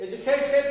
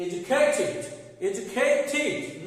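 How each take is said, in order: First: "Educated" as "edu-kay-ted", higher and louder; wrong -ted ending. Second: "Educated" as "edu-kay-tid", second take drawn out; short i at the end of "educated"; correct -tid ending. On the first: Teacher shows what not to say, "Educated" with -ted. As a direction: open e closing "Educated". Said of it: "না". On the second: Teacher drills the right form, "educated" with -tid. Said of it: "Educated না". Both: Shown as a demonstration.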